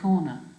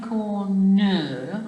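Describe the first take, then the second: First: The stress is on the first syllable. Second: The stress is on the last syllable. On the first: The speaker calls it right. "I'm saying corner, so it's unstressed" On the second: The speaker calls it wrong. "I'm not saying corner"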